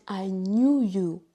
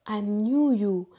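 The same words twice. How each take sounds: The two takes are said the same way.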